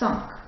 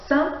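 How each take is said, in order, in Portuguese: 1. A consoante final é pronunciada. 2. A consoante final não é pronunciada. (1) "Mas se eu estiver contando" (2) "Eu não vou falar o que"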